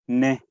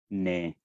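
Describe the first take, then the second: First: The word is said on a high pitch. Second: The word is said on an extra low pitch. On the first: "el tono cuatro, que es un tono alto" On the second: "en el tono uno tenemos el tono extra bajo"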